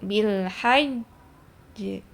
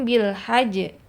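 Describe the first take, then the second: First: The final j is held before release. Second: The final j is released at once. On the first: The speaker calls it right. "Berhenti dulu bil hajj" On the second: The speaker calls it wrong. "jangan langsung bil hajj"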